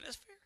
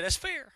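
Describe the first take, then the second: First: Very soft, nearly whispered; tiny, hushed repeat; hushed concession. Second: Said in the usual way. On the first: Retold or imitated. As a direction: concede it under the breath, barely audible.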